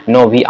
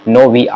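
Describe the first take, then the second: No difference in how they are said.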